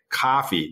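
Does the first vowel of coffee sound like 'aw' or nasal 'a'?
nasal a. The first vowel is a flat, nasal 'a' sound. "we'd say coffee"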